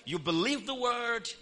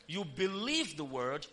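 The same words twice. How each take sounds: First: Higher, raised preacher's prompt; call for repetition. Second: Said in the usual way. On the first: Shown as a demonstration. Preacher leads the congregation in repeating, higher and raised. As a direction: call it out for the crowd to echo. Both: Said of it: "Somebody say you acknowledge the word".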